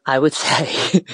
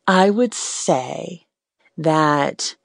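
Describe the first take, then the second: First: Nervous laugh mid-phrase; a shy chuckle before confessing. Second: Stretched out slowly, rising on would; haltingly slow start to a confession; slow, hesitant. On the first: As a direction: laugh it off while hesitating. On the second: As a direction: draw it out, working up courage. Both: Real, not acted. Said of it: "if I'm completely honest".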